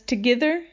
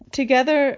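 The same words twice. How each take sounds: First: The word has older, commoner-style vowel sounds. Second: The word has today's standard vowel sounds. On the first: This is how a commoner of that time spoke. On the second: This is today's usual pronunciation.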